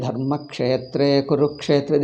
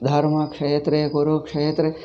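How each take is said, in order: First: "Dharma Kshetre Kurukshetre" slow, every consonant stressed; stressed letters. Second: "Dharma Kshetre Kurukshetre" slow but with light, unstressed clusters; light pronunciation. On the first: Shown as a demonstration. Teacher shows how Indians say it, stressed "Dharma Kshetre Kurukshetre". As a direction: press firmly on each cluster in "Dharma Kshetre Kurukshetre". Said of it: "all letters, we stress them".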